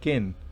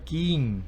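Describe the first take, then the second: First: The vowel is very short and clipped. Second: The vowel is long and drawn out. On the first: The speaker calls it right. "Una I muy corta, muy corta, muy corta" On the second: The speaker calls it wrong. "no se pronuncia king, no. Eso no lo entendería nadie"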